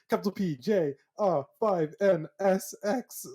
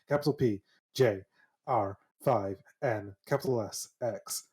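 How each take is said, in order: First: It is said at a faster pace. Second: It is said at a slower pace.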